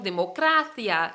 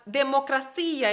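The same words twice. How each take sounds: First: The stress falls where Spanish places it. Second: The stress falls where Portuguese would place it. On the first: The speaker calls it right. "decimos democracia" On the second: The speaker calls it wrong. "No decimos uh, democracia en español"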